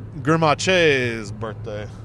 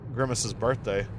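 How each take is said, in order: First: The name is pronounced in a fancy, affected way. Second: The name is pronounced in the ordinary way.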